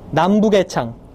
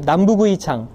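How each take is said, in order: First: The particle is pronounced as 'e'. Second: The particle is pronounced as 'ui'.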